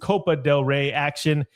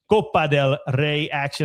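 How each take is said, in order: First: Copa del Rey has an anglicized English pronunciation. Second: Copa del Rey has a Spanish-style pronunciation. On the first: The speaker calls it wrong. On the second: The speaker calls it right. "Had to like put some some uh, Spanish accent into there"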